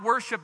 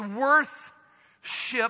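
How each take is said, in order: First: It is said plainly, without a th sound. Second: A clear th sound comes before ship. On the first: "It's not worship" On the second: "Notice how I say that"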